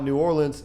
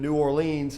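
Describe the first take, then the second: First: The name is said with the local regional pronunciation. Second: The name is said with a northern regional pronunciation. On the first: The speaker is from the area near the city. "people around here call it New Orleans" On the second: The speaker is from further north. "further north you go, it turns into New Orleans"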